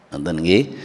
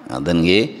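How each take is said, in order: The two takes are said the same way.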